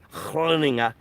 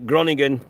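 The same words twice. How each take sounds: First: The name is pronounced the Dutch way. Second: The name is pronounced the English way. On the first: "try to pronounce that correctly" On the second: "English pronunciation"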